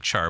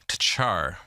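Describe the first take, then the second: First: The word starts without a T sound. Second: The word starts with a T sound. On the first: "It might just be Char" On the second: "I'm pronouncing the T"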